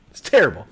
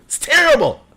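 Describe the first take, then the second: First: Said in the usual way. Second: High-pitched exaggerated exclamation; mock outraged cry. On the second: Real, not acted. Streamer judging his own impression, high mock outrage. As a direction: blurt it high in comic dismay.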